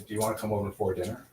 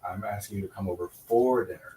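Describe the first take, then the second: First: The word 'for' is reduced and unstressed. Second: The word 'for' is fully pronounced and stressed. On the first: A plain, ordinary invitation. "It's called a weak form" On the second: It is for dinner, not with dinner. "unless they are being emphasized"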